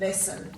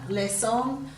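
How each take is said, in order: First: The second vowel is reduced to a schwa. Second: The second vowel is full, as spelled. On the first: This is how it is normally said. "We tend to give a schwa sound" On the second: It makes the spelling easier. "if you say them correctly as they've spelt"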